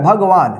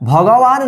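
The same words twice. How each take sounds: First: No vowel is said between 'g' and 'w'. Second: An extra 'a' vowel is said after the 'g'. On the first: The speaker calls it right. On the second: The speaker calls it wrong.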